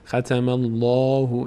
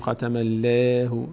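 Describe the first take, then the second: First: The L in Allah is full and heavy. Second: The L in Allah is thin and light. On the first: The speaker calls it right. "پر خونده میشه، دهان به سمت بالا باز میشه" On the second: The speaker calls it wrong. "نمیگیم"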